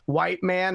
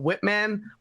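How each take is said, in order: First: The first syllable sounds like 'white'. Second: The first syllable sounds like 'wit'. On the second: "instead of Whitman"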